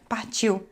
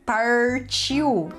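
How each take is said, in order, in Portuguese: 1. O R é falado do jeito carioca. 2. O R é retroflexo. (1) "eu fiz um... meio, meio carioca, assim" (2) "Eles se incomodaram muito com o meu R"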